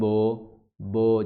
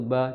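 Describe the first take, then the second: First: The vowel is heavy and rounded like o. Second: The vowel is light, with lips spread sideways. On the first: The speaker calls it wrong. "jangan bo bo, jadi ba jadi tebal" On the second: The speaker calls it right. "sedikit dia tarik ke samping"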